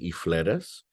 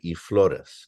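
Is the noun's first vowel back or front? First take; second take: front; back. First: The noun's first vowel shifts to a front vowel. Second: The noun's first vowel stays a back vowel. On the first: Most speakers do not say it this way. "They would not say y flores" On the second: This is how most speakers say it. "So most would say y flores"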